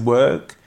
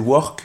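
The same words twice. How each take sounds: First: It is said with a native English accent. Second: It is said with a French accent. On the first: This is the proper way to say the word. The speaker calls it right. "parce que c'est « work »" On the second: This is said to sound like everyone else. The speaker calls it wrong. "juste pour que les autres vous comprennent"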